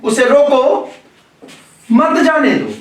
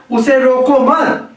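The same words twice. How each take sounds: First: उसे रोको, a clear break, then मत जाने दो falling; pause after रोको. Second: उसे रोको मत slowly joined, the break only after मत; pause after मत. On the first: Teacher reading the order to stop him, pause after रोको. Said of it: "रोको के बाद कर रहे हैं". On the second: Teacher reading it as permission to go, pause after मत. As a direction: run रोको into मत, then stop. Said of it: "विराम चिन्ह के स्थान पे हमने परिवर्तन किया". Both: Shown as a demonstration.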